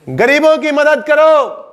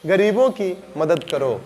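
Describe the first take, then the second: First: It is said in a high, commanding tone. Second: It is said in a low, gentle tone.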